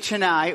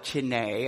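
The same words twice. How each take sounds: First: The name is said in the speaker's usual pronunciation. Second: The name is said imitating the local Indian pronunciation.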